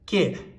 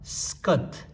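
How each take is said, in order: First: It begins directly with the k sound. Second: It begins with an s before the k. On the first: "nganzo ka da ke labe imba" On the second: "In Ladakhi language, this pronounce the superscribe and then the uh, root letter and the suffix da"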